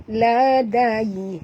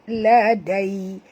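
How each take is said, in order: The two takes are said the same way.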